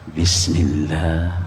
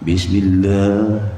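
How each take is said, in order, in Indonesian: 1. Diucapkan pelan, hampir tak terdengar. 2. Diucapkan keras, terdengar dari jauh. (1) "bagi sebelah dengar sunat" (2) "bagi orang sana dengar makruh"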